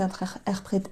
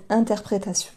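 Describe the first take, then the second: First: Stumbling into a German-sounding "interpré-"; near German accent. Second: Said in the usual way. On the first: Real, not acted. Tarot reader fumbling a word for viewers, accidental German-sounding accent. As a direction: trip over the r's in "interpré-", almost German-accented. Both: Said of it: "J'ai failli vous faire l'accent allemand".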